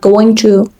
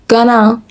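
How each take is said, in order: First: It is said in full as two separate words. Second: It is reduced and run together as one word. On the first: "instead of going to" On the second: "they say gonna"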